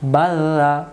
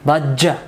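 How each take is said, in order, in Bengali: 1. মাঝের ব্যঞ্জনবর্ণটি একক এবং নরম। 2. মাঝের ব্যঞ্জনবর্ণটি দ্বিত্ব এবং শক্ত। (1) "নরম করে বাজা" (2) "আজ যদি আমরা বলি বাজ্জা বাজ্জা হবে না"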